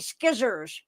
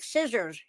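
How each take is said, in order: First: The word begins with an sk sound. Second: The word begins with a plain s sound.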